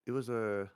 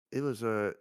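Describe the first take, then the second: No difference in how they are said.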